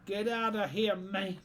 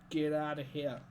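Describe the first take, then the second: First: Loud, higher get outta here, man; shouted dismissal. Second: Said in the usual way. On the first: Shown as a demonstration. Streamer shouting it to chat, loud and playful. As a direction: bellow it at anyone without banter. Repeats phrase, second time shouted.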